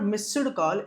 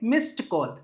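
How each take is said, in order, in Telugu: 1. మిస్డ్ d శబ్దంతో ముగుస్తుంది. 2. మిస్డ్ t శబ్దంతో ముగుస్తుంది. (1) "ఇట్స్ నాట్ మిస్డ్ కాల్" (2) "ఎంఐఎస్టీ లాగా చెప్పాలి"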